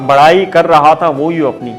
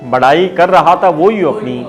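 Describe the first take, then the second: No difference in how they are said.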